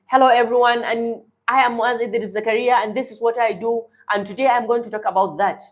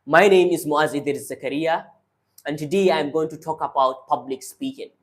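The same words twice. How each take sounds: First: Higher, thinner chest voice; high chest voice, hurried at the end; speaking from the chest. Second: Lower, grounded diaphragm voice; calm low voice from the diaphragm; speaking from the diaphragm. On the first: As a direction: push it up from the chest, shallow. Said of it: "if I want to speak from my chest, I'll be speaking". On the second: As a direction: bring it down and speak from the belly. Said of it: "But then if I take it down, I speak like this". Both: Shown as a demonstration.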